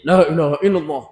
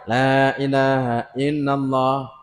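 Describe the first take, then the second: First: The phrase is recited faster. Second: The phrase is recited slowly. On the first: "Masukkannya gigi satu lagi" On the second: "Dia ada pelan ya"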